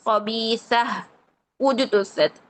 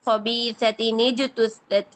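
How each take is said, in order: First: The voice stops after the first word, ending in h. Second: The words are joined with an added nin sound. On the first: "अगर हमने यहाँ पे वक्फ कर रहे हैं" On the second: "कसरा देकर आगे वाले हर्फ के साथ मिला दिया"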